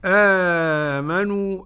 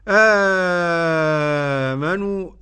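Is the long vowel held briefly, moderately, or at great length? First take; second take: moderately; great length. First: The long vowel is held a moderate length. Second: The long vowel is held at great length. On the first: "أدي التوسط" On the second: "أدي المد"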